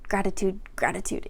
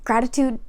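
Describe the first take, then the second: First: Fading repeat, much lower and softer. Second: Said in the usual way. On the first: Shown as a demonstration. Repeating her tip to viewers, trailing off softly. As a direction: let the word trail away to almost nothing.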